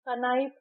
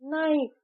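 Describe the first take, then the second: First: The word starts with a k sound. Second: The word starts with an n sound. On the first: The speaker calls it wrong. "कनाइफ नहीं कहते" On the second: The speaker calls it right. "एन I F E नाइफ कहते हैं"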